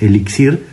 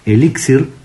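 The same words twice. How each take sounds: First: The stress is on the last syllable. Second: The stress is on the first syllable. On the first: "una de uso más común" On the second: "tiene que ir con acento en la primera I, porque es una palabra grave"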